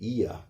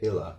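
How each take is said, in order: First: The double L is said as a Y sound. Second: The double L is said as an L sound. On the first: This is the Spanish way of saying it. "in Spanish, the double L would actually have a Y sound" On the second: This is the English way of saying it. "we pronounce it the English way"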